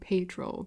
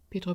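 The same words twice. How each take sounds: First: The name is said with an American pronunciation. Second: The name is said with a Spanish pronunciation. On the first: The speaker calls it wrong. "I'm not saying Pedro because God no" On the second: The speaker calls it right. "I'm not saying it like the Americans keep saying it"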